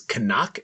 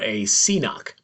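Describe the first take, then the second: First: It is said the original Gaelic way. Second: It is said the common English way. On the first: The speaker calls it right. "The actual correct way to pronounce it" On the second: The speaker calls it wrong. "everybody pretty much says it wrong"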